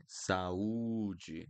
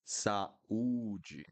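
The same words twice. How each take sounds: First: "Saúde" as sa-u-dji, every vowel clear; each vowel sounded. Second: "Saúde" with A and U both said apart; each vowel sounded. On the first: Teacher repeating "Saúde" for learners to copy. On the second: Teacher showing each vowel in "Saúde". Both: Shown as a demonstration. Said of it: "I need to pronounce each one".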